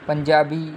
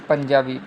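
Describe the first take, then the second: The two takes are said the same way.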